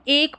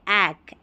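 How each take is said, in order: First: The vowel is a closer 'e' as in bed. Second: The vowel is an open 'a' as in cat. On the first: The speaker calls it wrong. "अगर इसको एक पढ़ेंगे, जैसे उच्चारण आपने गलत किया" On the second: The speaker calls it right. "इसको हम पढ़ेंगे ऐक"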